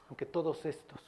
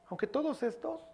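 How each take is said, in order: First: Said in the usual way. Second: Aunque todos estos mocked, high and rising on todos; mocking boast. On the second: Preacher mocking boastful Peter, high mock swagger. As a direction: lampoon Peter's cocky boast.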